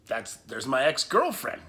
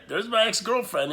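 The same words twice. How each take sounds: First: Said in the usual way. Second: Higher and louder, stressing "my"; stunned emphasis. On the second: Real, not acted. Telling viewers his ex was calling, louder in disbelief. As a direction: hit it again in disbelief.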